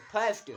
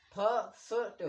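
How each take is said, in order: First: फर्स्ट repeated louder with a falling tune; model word emphasis. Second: Said in the usual way. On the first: Shown as a demonstration. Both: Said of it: "आई का pronounce हो रहा है अ".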